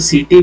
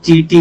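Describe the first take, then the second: First: The word begins with an s sound. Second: The word begins with a ch sound. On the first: "इसको सीटी भी बोलते हैं" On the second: "कुछ लोग चीटी भी बोलते हैं"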